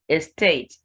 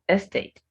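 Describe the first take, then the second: First: The stress is on the second syllable. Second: The stress is on the first syllable. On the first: The speaker calls it right. "The second syllable is stressed" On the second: The speaker calls it wrong. "Not estate"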